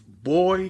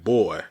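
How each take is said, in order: First: It is said in a casual, friendly tone. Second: It is said in a condescending, demeaning tone. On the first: It is a friendly, familiar way to address someone. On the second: It belittles the person being addressed.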